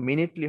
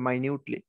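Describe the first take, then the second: First: The word begins with a short 'min' sound. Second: The word begins with a long 'mine' sound. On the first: The speaker calls it wrong. "এটা কিন্তু মিনিটলি হবে না" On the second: The speaker calls it right. "এটা হবে মাইনিউটলি"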